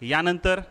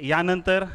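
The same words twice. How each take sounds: Both takes have the same delivery.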